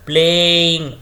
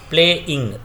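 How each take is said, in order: First: The word is stretched out long and smooth. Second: The word is broken into separate short parts. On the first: "यहाँ पर हम इसको length को खींच रहे हैं" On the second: "या फिर हम इसको तोड़ सकते हैं"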